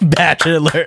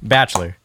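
First: The word is said with three syllables. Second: The word is said with two syllables. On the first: The speaker calls it wrong. "See, that's three syllables, right?" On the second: The speaker calls it right. "But now say it with two"

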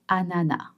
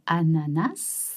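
First: The final s sound is silent. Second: The final s sound is pronounced. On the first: "some others might say anana" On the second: "some people will say ananas"

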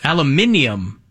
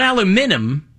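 First: The word ends in '-nium' with an extra syllable. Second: The word ends in '-num' with no extra syllable. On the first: "They're adding letters" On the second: "Not aluminum, because that would make sense"

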